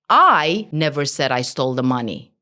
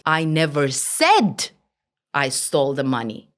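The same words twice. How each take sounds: First: The stress falls on the first word, I. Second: The stress falls on the word said. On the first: Someone else said it. "Focus on the I" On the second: It was implied rather than said. "Maybe I implied different meaning"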